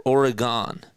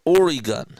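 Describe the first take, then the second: First: Oregon ending in "gahn", OR-uh-gahn, asked; Oregon as "OR-uh-gahn", lightly querying. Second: Oregon with a long "ee", OR-ee-gun, asked; Oregon as "OR-ee-gun" with a questioning lilt. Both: Shown as a demonstration. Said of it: "how do you pronounce it?".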